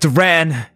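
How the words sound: The name is shouted in an angry voice. "In anger"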